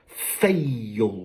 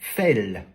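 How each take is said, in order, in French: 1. La voyelle glisse : c'est une diphtongue. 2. C'est une voyelle simple. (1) "je suis obligé encore une fois de rajouter la diphtongue" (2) "Si je prononce à la française, ça me donne fell. Donc il manque la diphtongue"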